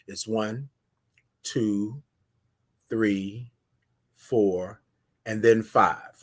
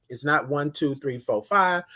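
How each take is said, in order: First: Slow, soft, spaced-out count to five. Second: Said in the usual way. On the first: Shown as a demonstration. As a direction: count it out slowly with long pauses. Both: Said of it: "it's a different five pace".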